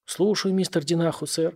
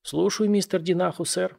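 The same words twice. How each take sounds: First: Put-on toothless old man, parroting. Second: Put-on toothless old man mumbling. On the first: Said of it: "как попугай повторил старик". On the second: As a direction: mumble it through a toothless mouth. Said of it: "прошамкал старик беззубым ртом". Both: A narrator's reading.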